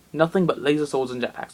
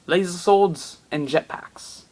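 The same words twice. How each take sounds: First: Said in the usual way. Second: Slow for emphasis. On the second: Shown as a demonstration.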